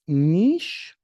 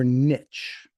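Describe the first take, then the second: First: It is said like 'neesh', rhyming with 'leash'. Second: It is said differently, not like 'neesh'.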